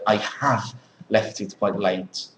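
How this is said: The auxiliary 'have' is full and stressed.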